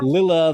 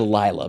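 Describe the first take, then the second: First: The first vowel is short. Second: The first vowel is long. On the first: The speaker calls it right. "a double consonant usually makes for a short vowel sound" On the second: The speaker calls it wrong. "I can't say Lila"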